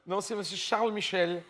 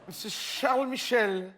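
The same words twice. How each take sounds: First: Said in the usual way. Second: Laughing. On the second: Real, not acted. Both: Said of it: "Ma langue a fourché".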